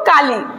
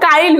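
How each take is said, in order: First: The 'i' vowel comes after the consonant. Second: The 'i' vowel comes before the consonant.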